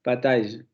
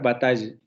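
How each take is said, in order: The two takes are said the same way.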